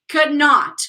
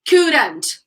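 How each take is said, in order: First: Two full words, with a separate not. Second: One contracted word, with not reduced. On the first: The negative is emphasized strongly. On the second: The negative is said casually.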